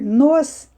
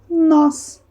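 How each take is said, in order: First: The vowel is closed and weak. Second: The vowel is open and stressed. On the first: The speaker calls it wrong. "em vez de eu ler nos" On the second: The speaker calls it right. "eu leio nós"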